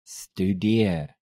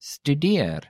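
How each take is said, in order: First: "Studeer" drawn out slowly; slow demonstration. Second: Said in the usual way. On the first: Shown as a demonstration. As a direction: stretch each syllable of "Studeer". Teacher repeats word slowly.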